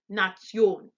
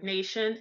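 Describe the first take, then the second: First: The word is said with German pronunciation. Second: The word is said with English pronunciation. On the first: "it's pronounced in German Nation" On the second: "we would say the word nation"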